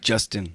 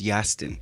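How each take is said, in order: First: The name begins with a J sound. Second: The name begins with a Y sound.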